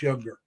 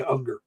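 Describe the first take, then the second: First: Younger said with an opening "y" sound; uncertain pronunciation. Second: Unger said as UNG-ger, no "y"; corrected pronunciation. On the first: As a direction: say Younger as YUNG-ger. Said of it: "or however they pronounce it". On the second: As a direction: start Unger straight on the vowel. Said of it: "I, I wanna say Unger". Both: Shown as a demonstration.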